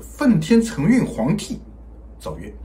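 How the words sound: The pause comes after huangdi, before zhaoyue. The emperor who holds heaven's mandate issues a decree. The speaker calls it right. "这个逗号呢应该是加在皇帝的后面的"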